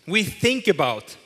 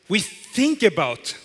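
Both takes have the same delivery.

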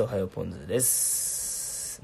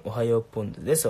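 First: Slow, with a long trailing "です"; drawn-out catchphrase. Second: Said in the usual way. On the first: Pretend. Streamer repeating a catchphrase to viewers, slow and stretched. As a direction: stretch おはようポンズです, holding the final s.

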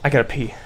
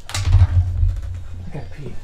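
First: Said in the usual way. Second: Slow drawn-out whisper. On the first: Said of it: "plain then whispered take". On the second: Real, not acted. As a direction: breathe it out slowly. Repeats slowly, voiceless.

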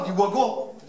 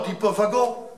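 First: Wagon said with a W, "wagon"; Northern wagon. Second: Wagon said with a V, "vagon"; standard wagon. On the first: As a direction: say wagon with a W sound. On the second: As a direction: say wagon with a French V. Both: Shown as a demonstration.

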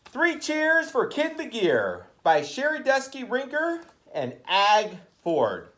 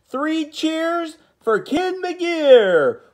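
First: Said in the usual way. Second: Slow, high cheering call; rally the class with a cheer; hooray cheer. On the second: Acted. Cheering the book title.

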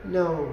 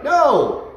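First: Soft, flat no with no force; a no that means nothing to the dog; limp no. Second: Loud, higher No with real force; meaningful no. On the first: Retold or imitated. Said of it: "they're just like". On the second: Shown as a demonstration. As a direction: let the dog hear you mean it. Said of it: "let the dog hear you".

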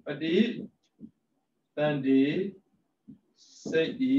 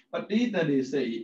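First: ပဋိ, သန္ဓေ, စိတ်ဤ with long pauses between; syllable by syllable. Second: Said in the usual way. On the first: Shown as a demonstration. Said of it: "split into parts next". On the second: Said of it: "ပဋိ / သန္ဓေ / စိတ်ဤ".

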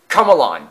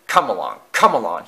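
First: Loud, angry falling bark; snarling. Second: Loud, punchy engine chug; puffing. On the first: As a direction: snap it out impatiently. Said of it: "snarled Aled". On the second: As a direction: urge the train on with each puff. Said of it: "he puffed". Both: A narrator's reading.

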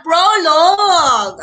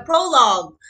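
First: Prologue drawn out slowly and loudly, each syllable stressed; slow emphatic pronunciation. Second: Said in the usual way. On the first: Shown as a demonstration. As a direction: drill Prologue slowly for the class, higher and louder. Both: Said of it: "yung listahan natin kanina".

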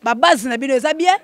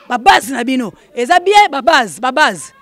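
First: Said in the usual way. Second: Louder, punched repeat; emphatic call-out. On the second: Real, not acted. Host checking on his supporters, emphatic call-out. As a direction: call it out to the crowd with force.

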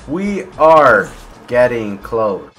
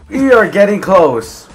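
First: Very slow, stretched repeat; slow, deliberate suspense; drawn-out suspense. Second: High, loud, stretched words; high and loud, slightly drawn out; excited announcement. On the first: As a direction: draw out every word at usual pitch. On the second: Building suspense in game play. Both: Real, not acted.

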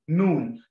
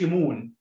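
First: مون with the vowel stretched into a long u sound; مون said right, long oo; correct moon. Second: مون said the wrong way, the vowel not stretched into a long u; مون with the short wrong vowel, as the error to avoid; wrong moon. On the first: Teacher giving kids the correct مون, long vowel. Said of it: "مكسورة كده". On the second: Teacher showing kids the mistake in مون, wrong vowel. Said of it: "ما تقولش مون". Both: Shown as a demonstration.

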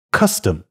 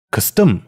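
First: CUS-tom, strong first syllable and weak second; 第一音节重读. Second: Cus-TOM, weak first syllable and strong second; 轻重颠倒. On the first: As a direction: stress the first syllable of Custom, reduce "tom" to a light schwa. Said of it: "重读". (Custom 前重后轻，正确读法) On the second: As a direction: wrongly stress the second syllable of custom, reducing "cus". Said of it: "也就是轻重颠倒". (custom 错读成前轻后重) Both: Shown as a demonstration.

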